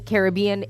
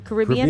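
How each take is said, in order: First: It is said the Canadian way. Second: It is said the American way. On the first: This is how Canadians say it. "we say Caribbean" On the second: This is how Americans say it. "maybe in the U S they say Caribbean"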